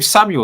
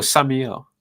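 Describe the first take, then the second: First: Samuel said as "SAM-yool", two syllables; usual pronunciation of Samuel. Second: Samuel said as "SAM-ee-el", three syllables; Samuel rhyming with Daniel. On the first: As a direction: say Samuel with a "yul" ending. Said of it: "is your name Samuel or Samuel?". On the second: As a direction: say Samuel with an "ee-el" ending. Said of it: "like Daniel, but with Sam". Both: Shown as a demonstration.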